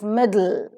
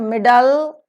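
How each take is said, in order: First: The L follows the D directly, without a vowel. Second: A vowel is heard between the D and L. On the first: The speaker calls it right. "Immediately after D, the L sound is there" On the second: The speaker calls it wrong. "It is not middle"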